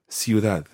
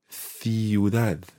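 First: The first consonant is an s sound. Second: The first consonant is a th sound. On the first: This is how it is said in most of Latin America. "in most of Latin America, and indeed some parts of Spain, you would say" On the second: This is how it is said in Spain. "So in Spain, it's th as in th"

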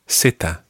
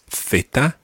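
First: The letter name is said with a Latin American pronunciation. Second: The letter name is said with a Spain pronunciation. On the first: "And in Latin America, Zeta" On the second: "In Spain, it's Theta"

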